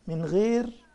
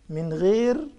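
The two takes are said the same way.

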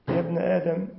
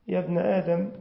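Both takes have the same delivery.

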